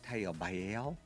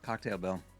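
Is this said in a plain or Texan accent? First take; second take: Texan; plain. First: It is said in a Texan accent. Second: It is said in a plain accent.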